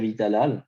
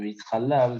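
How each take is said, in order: First: The middle consonant is a soft, breathy h. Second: The middle consonant is a rough, guttural ch. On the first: It means praised. The speaker calls it right. "c'est le he et pas un chet" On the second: It means desecrated. The speaker calls it wrong. "pas un chet"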